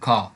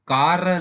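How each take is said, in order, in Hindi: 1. आर की आवाज़ silent है। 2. आर की आवाज़ बोली जाती है। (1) "इसे क्या बोलते हैं? खा" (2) "कार नहीं बोलते"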